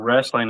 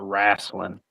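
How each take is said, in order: First: It is said in a plain standard accent. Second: It is said in the local regional accent. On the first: "instead of" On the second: "down here ... they call it"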